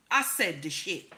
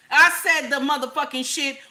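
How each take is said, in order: First: Said in the usual way. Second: Higher and louder, hammering it home; emphatic repeat. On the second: Shown as a demonstration. Ranting to viewers, repeating it higher and louder. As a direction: double down on the line, full volume.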